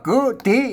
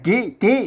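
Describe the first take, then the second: First: The first vowel is an unrounded 'eu' sound. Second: The first vowel is a front 'i' sound. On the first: This is the local script reading. "อ่านว่ากือตี" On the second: This is how it is read in Thai. "บางที่บอกอ่านว่ากิติ"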